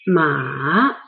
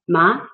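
First: The pitch dips low and then rises. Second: The pitch rises from middle to high. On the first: The word means horse. "The third, the transition tone" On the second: The word means numb. "And the second rising tone"

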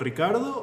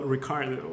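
First: The name is said with a Spanish accent. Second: The name is said with an English accent.

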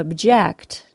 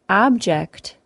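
First: The stress is on the second syllable. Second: The stress is on the first syllable. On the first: It is a verb meaning to protest. "To object is a verb" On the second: It is a noun meaning a thing. "An object is a noun"

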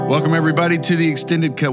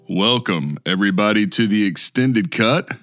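First: It is said in a normal voice. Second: It is said in a low, deep voice.

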